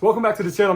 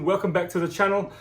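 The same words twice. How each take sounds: First: It is said in the speaker's normal accent. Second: It is said in a put-on Australian accent. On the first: "I'm totally kidding" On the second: "in a bit of an Australian accent"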